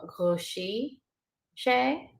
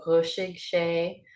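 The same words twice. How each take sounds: First: Chúisí sé with the final g dropped; dialect variant. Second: Chúisig sé with a hard final g; dialect pronunciation. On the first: Teacher showing another dialect, chúisí sé without g. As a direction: end chúisí on an ee vowel. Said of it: "or you may hear". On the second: Teacher showing one dialect, chúisig sé with final g. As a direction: sound the g ending chúisig. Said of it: "either one depending on dialect". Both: Shown as a demonstration.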